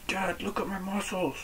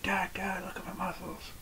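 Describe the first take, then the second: First: Much higher, child-like mock voice; daughters imitated. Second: Put-on high, hushed child-like voice; daughters imitated. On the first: Daughters showing off to dad, high imitated child voice. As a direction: pitch it way up like a little daughter. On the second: Daughters calling dad to look at muscles, hushed imitated child voice. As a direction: go high and soft, fading into a whisper. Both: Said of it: "My daughters do that".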